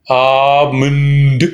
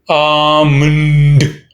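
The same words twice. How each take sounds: No difference in how they are said.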